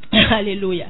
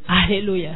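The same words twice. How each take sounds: The two takes are said the same way.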